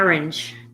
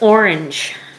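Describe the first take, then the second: First: It is said with a Philadelphia accent. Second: The first vowel sounds like the word 'or'. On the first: The speaker calls it wrong. "we're from Philadelphia, so we, we don't say that right. We say" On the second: The speaker calls it right. "I think it's orange, like or"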